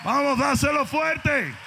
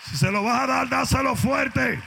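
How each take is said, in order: First: Loud, high, slower rallying shout; shouting again. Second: Loud, high preacher shout; rally the church to give it everything; shouting exhortation. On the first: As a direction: push them harder, stretching each word. Repeated urging, shouting. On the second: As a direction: pastor firing up the church, shouting. Preacher urging congregation, shouting. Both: Acted.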